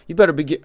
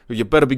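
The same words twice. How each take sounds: First: It is said in the speaker's plain accent. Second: It is said in a New York accent.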